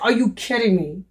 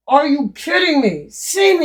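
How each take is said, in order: First: Said in the usual way. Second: "kidding" pushed higher and louder; incredulous at the price; surprised. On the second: Real, not acted. To viewers about the Amazon price, incredulous.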